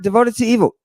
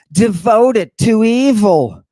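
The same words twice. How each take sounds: First: "Devoted to evil" repeated quickly, pitched up; mock disbelief. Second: "Devoted to evil" slow and raised in pitch; emphatic reading. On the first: Lecturer questions the definition, "Devoted to evil" in quick disbelief. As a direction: toss back "Devoted to evil" as a brisk double take. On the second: Lecturer reads out the definition, "Devoted to evil" slow and emphatic. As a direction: stretch out "Devoted to evil", high and weighty. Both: Shown as a demonstration.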